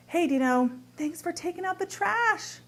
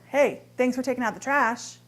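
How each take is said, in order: First: Bright, genuinely thankful, rising high on trash; grateful. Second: Dry thanks with a pointed Hey; sarcastic. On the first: Wife thanking husband Dino for the trash, sincerely grateful. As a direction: thank him like you truly mean it. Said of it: "One can be really gratitude". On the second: Wife mocking husband over the trash, sarcastic thanks. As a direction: say thanks but mean the opposite. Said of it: "one can be full of sarcasm". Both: Shown as a demonstration.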